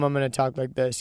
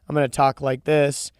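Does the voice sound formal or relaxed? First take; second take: relaxed; formal. First: It is said in a casual, natural everyday voice. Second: It is said in a polished, put-on radio voice. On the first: This is how one talks at home. The speaker calls it right. "and at home" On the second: This is how one talks at work. The speaker calls it wrong. "At work"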